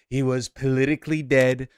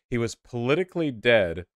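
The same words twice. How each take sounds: First: It is said in a put-on imitation voice. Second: It is read in a normal, plain voice.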